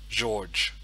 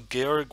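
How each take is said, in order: First: The name is said the English way. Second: The name is said the German way. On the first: The speaker calls it wrong. "it's the wrong pronunciation in in uh, in uh, in German" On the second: The speaker calls it right. "Georg would be the correct pronunciation"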